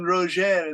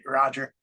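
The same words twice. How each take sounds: First: The name is said with a French pronunciation. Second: The name is said with an English pronunciation. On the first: "That's the French for Roger" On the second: "Americans, Australians, British say Roger"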